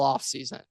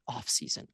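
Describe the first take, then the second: First: The word is said at normal loudness. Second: The word is said quietly, almost whispered. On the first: The speaker calls it wrong. "we don't say that word loudly" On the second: The speaker calls it right. "quietly, whispering"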